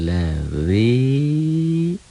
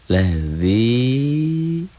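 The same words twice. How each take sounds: No difference in how they are said.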